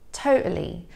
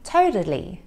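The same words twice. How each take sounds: First: The middle T is a glottal stop. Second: The middle T sounds like a soft D. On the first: "with a glottal T, so that's where the flow of air is stopped and then released" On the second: "the American T, which sounds more like a soft D"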